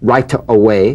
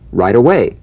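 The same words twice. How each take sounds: First: The T of right is a crisp, full T. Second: The T of right is softened toward a D. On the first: The speaker calls it wrong. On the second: The speaker calls it right.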